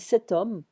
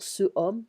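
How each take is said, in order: First: A t sound links into homme. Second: No t sound comes before homme. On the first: The speaker calls it right. "j'avais dit cet homme" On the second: The speaker calls it wrong. "Je ne vais pas dire ce homme, non"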